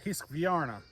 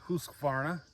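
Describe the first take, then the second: First: It is said in an imitated Swedish accent. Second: It is said in a plain English accent. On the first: This is how it would sound in its home language. "if you think of it in a Swedish accent, wouldn't it be more like Hiskvarna" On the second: This is the common way people say it. "a lot of people say Husqvarna"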